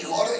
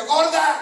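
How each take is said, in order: First: Said in the usual way. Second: High, loud mimicked yell; mock calling out. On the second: Preacher imitating a husband he overheard calling his wife, mock yell.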